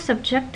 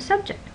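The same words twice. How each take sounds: First: The stress is on the second syllable. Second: The stress is on the first syllable. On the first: It is a verb meaning to expose. "with verbs the stress is toward the end" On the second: It is a noun meaning a topic. "which is a noun"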